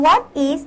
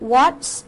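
First: Two separate full words are said. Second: The words are contracted into one syllable. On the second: "ครูขอให้นะคะหนูใช้คำย่อเป็น"

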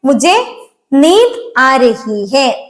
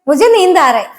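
First: Every word is pronounced fully and separately. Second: The words are run together and clipped short.

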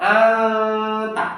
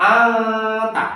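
No difference in how they are said.

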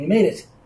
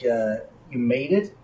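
First: The final T is sharply released. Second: The final T is soft and plain.

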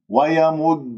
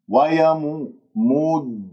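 First: The doubled d follows a short vowel. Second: The vowel is stretched and the first d disappears. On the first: The speaker calls it right. "إذن يجب أن يكون ضم" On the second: The speaker calls it wrong. "هكذا أنت قضيت على الدال الساكنة ما طلعت معك"

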